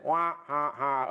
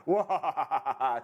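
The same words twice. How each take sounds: First: Half-hearted mock evil cackle; a weak first go at an evil laugh; evil scientist laugh. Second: Laughing mock evil cackle; a second go at a villain's cackle, with real laughter; hammed-up evil laugh while giggling; evil scientist laugh. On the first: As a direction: try out a villain's laugh, tentatively. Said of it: "evil scientist laugh". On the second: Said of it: "a better job of the evil scientist laugh".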